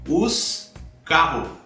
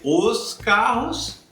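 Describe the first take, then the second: First: The final S of the noun is dropped. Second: The final S of the noun is pronounced. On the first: "muitas vezes falando naturalmente a gente diz os carro" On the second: "em vez de os carros"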